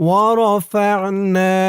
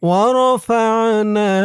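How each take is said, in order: No difference in how they are said.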